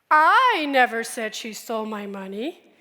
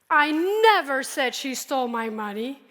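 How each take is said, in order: First: The stress is on the word I. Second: The stress is on the word never.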